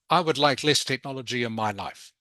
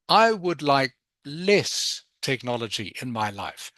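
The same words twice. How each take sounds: First: The word less gets no special emphasis. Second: The word less is slowed and strongly emphasized. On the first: The speaker calls it wrong. "instead of saying" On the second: The speaker calls it right. "Don't be scared to emphasize key words in the sentence"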